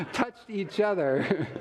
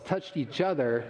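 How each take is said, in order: First: Touched each other said slowly, each word weighted; emphasized phrase. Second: Said in the usual way. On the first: Shown as a demonstration. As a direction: lean on Touched each other, slow and deliberate. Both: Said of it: "Let me emphasize that".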